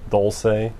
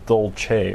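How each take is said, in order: First: The word is pronounced the Spanish way. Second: The word is pronounced the Italian way. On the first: The speaker calls it wrong. "Instead of dulce" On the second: The speaker calls it right. "it should be dolce"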